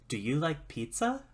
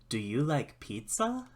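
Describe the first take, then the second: No difference in how they are said.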